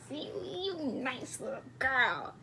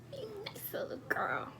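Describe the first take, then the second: First: Softer, put-on cooing voice. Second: Higher, softer whisper; whispered coo. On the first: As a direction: coo it gently like to a child. Cooing at a whispering stranger. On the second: Acted. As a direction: breathe it out as a whisper. Repeats the compliment in a whisper.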